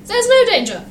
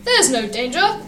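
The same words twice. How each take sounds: First: "no danger" pitched high, falling at the end; emphatic repeat. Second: Said in the usual way. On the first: A narrator's reading. Thomas insists, repeated more emphatically.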